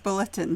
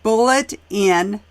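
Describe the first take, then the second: First: The two parts are run together quickly. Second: The two words are said separately, not rushed.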